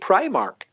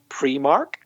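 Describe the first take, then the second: First: It is said with the general English pronunciation. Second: It is said with the Irish pronunciation. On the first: "everybody else in the English-speaking world seems to say" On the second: "Everybody that I've ever met from Ireland says"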